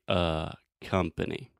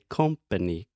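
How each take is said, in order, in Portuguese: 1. A primeira vogal é um schwa relaxado. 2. A primeira vogal é um o aberto e tenso. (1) "She just needs to relax her throat and say" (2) "She's making the o sound, which has a little more tension. It's a little more open"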